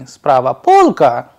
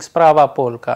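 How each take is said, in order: First: The voice rises at the end. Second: The voice falls at the end. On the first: It asks a question. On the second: It states a fact.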